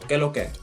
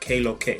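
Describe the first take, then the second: First: Qué has a short pure e vowel. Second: Qué has a gliding ay vowel. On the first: The speaker calls it right. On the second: The speaker calls it wrong.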